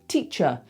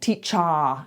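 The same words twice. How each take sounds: First: The final vowel is relaxed and reduced. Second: The final vowel is open and full. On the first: The speaker calls it right. "just throwing the sound away" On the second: The speaker calls it wrong. "not teacher. It's not this big sound"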